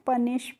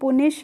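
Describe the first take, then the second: First: The first vowel sounds like 'uh' in cup. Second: The first vowel sounds like 'oo' in put. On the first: The speaker calls it right. "पनिश पढ़ते हैं" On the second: The speaker calls it wrong. "इसको हम पुनिश नहीं पढ़ते हैं"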